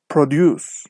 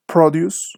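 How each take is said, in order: First: ProDUCE, second syllable stressed, falling; verb stress. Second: PROduce, first syllable stressed; noun stress. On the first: Teacher shows students the verb form, stress on DUCE in "produce". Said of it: "the stress is on the second syllable". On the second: Teacher shows students the noun form, stress on PRO in "Produce". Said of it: "the stress is on the first syllable". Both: Shown as a demonstration.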